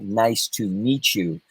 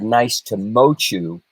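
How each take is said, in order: First: The middle word has an 'ee' vowel. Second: The middle word has an 'oh' vowel. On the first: The speaker calls it right. "repeat the phrase" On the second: The speaker calls it wrong. "you mispronounced the word meet"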